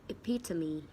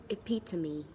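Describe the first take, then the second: The two takes are said the same way.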